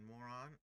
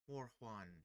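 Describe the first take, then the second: First: The name sounds like the word 'moron'. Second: The name ends with a 'juan'-like sound. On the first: The speaker calls it wrong. "I don't think it's the first one I said. I don't think it's Moron" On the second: The speaker calls it right. "So I'm gonna say Mor Morjuan"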